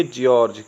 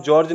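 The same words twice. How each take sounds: First: जॉर्ज as "ji-orj", with an i-glide; taught reading. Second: जॉर्ज as one syllable, "jorj"; wrong reading. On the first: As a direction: split जॉर्ज after a "ji" sound. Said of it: "इसको पढ़ेंगे जॉर्ज।". (जॉर्ज को "जिऑर्ज" पढ़ें) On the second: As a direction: say जॉर्ज with no i-glide after the j. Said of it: "इसको आप जॉर्ज नहीं पढ़ेंगे". (जॉर्ज को बिना "इ" के, गलत उच्चारण) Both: Shown as a demonstration.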